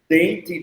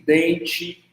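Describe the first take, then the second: First: The t is a plain dental stop. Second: The t sounds like a ch sound. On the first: "T sem ser chiado" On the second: "T chiado"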